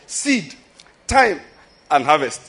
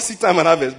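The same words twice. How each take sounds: First: The word time is stressed. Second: The word time is not stressed. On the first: It points to the waiting period between planting and reaping. The speaker calls it right. "but seed time and harvest. Is that time that's our problem?" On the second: It speaks only of planting and reaping. The speaker calls it wrong. "It is not seed time and harvest"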